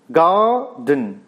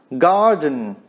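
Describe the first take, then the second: First: "Garden" pulled apart, long GAR then short den; first syllable stressed. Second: Said in the usual way. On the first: Shown as a demonstration. Teacher showing a trochaic word, "Garden" split with first syllable stressed. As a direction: break "Garden" in two, weight on GAR. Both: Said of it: "the first syllable is stressed".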